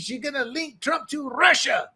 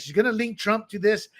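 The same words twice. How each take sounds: First: High, hammed-up fake Dutch accent; mock Dutch accent. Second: Said in the usual way. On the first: Dutch intelligence tipping off the FBI, in a mock Dutch accent. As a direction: warn them in a bad, Spanish-sounding Dutch accent. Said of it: "That's my Dutch accent".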